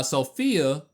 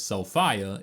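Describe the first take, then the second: First: Said in the usual way. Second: Sophia said "so-FYE-uh"; game's pronunciation. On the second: Shown as a demonstration. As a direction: say Sophia with a long "eye" in the middle. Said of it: "or as the game says".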